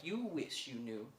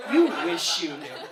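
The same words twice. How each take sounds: First: Low, slow, hushed retort; quiet, knowing aside. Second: Loud punch on the first YOU; emphatic retort. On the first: Muddy customer answering staring shop workers, quiet and knowing. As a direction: say it softly, drawn out, as if weighed down. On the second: Muddy customer repeating the retort to shop workers, loud and emphatic. Same reply repeated for the laugh. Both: Retold or imitated.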